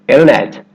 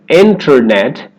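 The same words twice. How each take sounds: First: The T after the N is dropped completely. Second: The T after the N is clearly pronounced. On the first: "you'll hear a native speaker say" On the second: "instead of"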